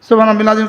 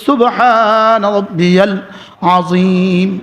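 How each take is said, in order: First: It is said quickly with syllables swallowed. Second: It is said slowly with every syllable clear. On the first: The prayer is recited carelessly. The speaker calls it wrong. "আর তাও আবার পড়ি কিভাবে?" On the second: The prayer is recited properly and beautifully. The speaker calls it right. "শুদ্ধ করে পড়বো, সুন্দর করে পড়বো।"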